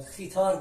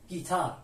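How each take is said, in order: First: خیتار with throaty kh replacing the g; g misread as kh. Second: گیتار starting on a hard g; hard g, silent u. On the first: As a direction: say خیتار as if the u were missing, opening on kh. («خیتار» با صدای خ) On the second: («گیتار» با صدای گ) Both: Shown as a demonstration.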